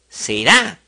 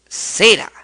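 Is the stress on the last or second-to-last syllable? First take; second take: last; second-to-last. First: The stress is on the last syllable. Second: The stress is on the second-to-last syllable.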